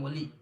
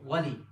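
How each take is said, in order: First: The name begins with an 'o' sound. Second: The name begins with a 'wa' sound. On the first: The speaker calls it wrong. "There's no such letter in Arabic. O" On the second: The speaker calls it right. "It's Wa"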